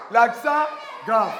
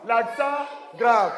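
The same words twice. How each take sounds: First: Slow, called out to the class; called-out model. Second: Slow, deliberate teacher model; slow model phrase. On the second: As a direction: say it slowly for the class to repeat. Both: Shown as a demonstration. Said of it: "Nous allons maintenant avec l'accent grave".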